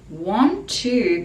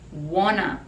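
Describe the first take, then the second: First: Both words are said fully and separately. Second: The two words blend into one reduced form. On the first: "Want to becomes wanna pronunciation" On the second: "Want to becomes wanna pronunciation, and this is very common in speaking and singing"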